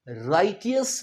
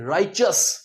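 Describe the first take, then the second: First: The middle consonant is a plain 't' sound. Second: The middle consonant is a 'ch' sound. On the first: The speaker calls it wrong. "इसे राइटियस नहीं कहेंगे" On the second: The speaker calls it right. "च च उच्चारेंगे हम"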